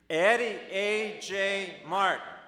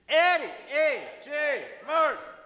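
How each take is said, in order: First: It is said a bit louder, with more energy. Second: It is shouted at full volume.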